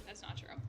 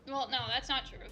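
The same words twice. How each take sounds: First: Unvoiced aside to self; whisper. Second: Said in the usual way. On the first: Real, not acted. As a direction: whisper it to yourself. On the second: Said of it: "repeats it whispered".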